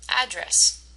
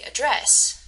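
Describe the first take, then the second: First: The stress is on the first syllable. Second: The stress is on the second syllable. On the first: It is the noun. "If you said the first part, you're right" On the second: It is the verb. "the emphasis on is on the second syllable, dress"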